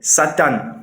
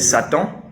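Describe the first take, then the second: First: It is pronounced with Fang sounds. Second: It is pronounced with French sounds. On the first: "Dans ma langue fan, c'est Satan" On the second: "en français, c'est Satan"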